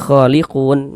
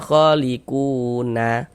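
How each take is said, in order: First: The word ends on a silent n, no vowel. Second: The word ends with a vowel after the n. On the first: The speaker calls it right. "tapi dibaca khaliqun" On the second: The speaker calls it wrong. "Jangan dibaca khaliquna"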